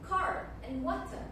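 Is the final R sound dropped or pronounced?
pronounced. The final R sounds are pronounced. "in American accent and erotic rule, they actually mention the R sound"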